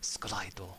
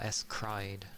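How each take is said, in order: First: It is said with a Japanese pronunciation. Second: It is said with an English pronunciation. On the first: "the Japanese way they'd always be like" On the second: "if you wanna say it in an English way"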